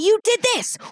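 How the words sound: It is said loudly and aggressively, like yelling. The other person feels attacked. The speaker calls it wrong. "The second that somebody gets yelled at"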